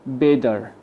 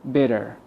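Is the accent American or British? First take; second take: American; American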